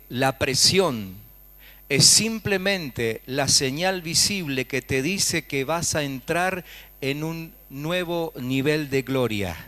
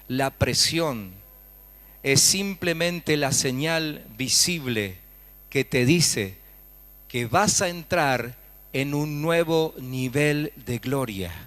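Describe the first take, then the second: First: It is said at normal speed. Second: It is said slowly.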